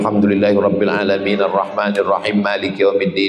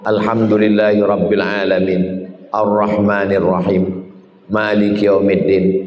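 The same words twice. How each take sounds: First: The verses run together in one breath. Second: Each verse is separated by a breath pause. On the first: Breath is not regulated between verses. The speaker calls it wrong. "bisa Fatihah satu nafas" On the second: Breath is regulated properly, verse by verse. The speaker calls it right. "Jadi Fatihah itu tujuh nafas"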